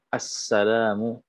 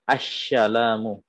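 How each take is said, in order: First: The s sound is a clear plain s. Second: The s sound is pronounced as sh. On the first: The speaker calls it right. "Jadi harus jelas sinnya" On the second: The speaker calls it wrong. "ada shin, ... ini tidak sah"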